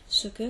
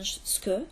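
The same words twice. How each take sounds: First: Both syllables of 'ce que' are fully pronounced. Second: The vowel of 'ce' is dropped, contracting it. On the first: "la contraction de ce que" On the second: "qui devient ce que"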